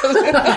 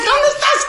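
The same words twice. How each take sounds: First: Said in the usual way. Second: High sing-song shout with a laugh; mock calling out. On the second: Searching the building for the witch: high laughing call.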